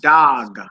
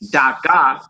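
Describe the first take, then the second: First: The word ends on the bare consonant. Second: A vowel is added after the final consonant. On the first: The speaker calls it right. "we say dog" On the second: The speaker calls it wrong. "we don't say da ga"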